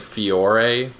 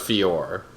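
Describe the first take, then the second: First: The final E is pronounced as a vowel. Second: The final E is silent, not pronounced. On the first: The speaker calls it wrong. "I've been saying it wrong the whole time" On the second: The speaker calls it right. "the E is silent apparently"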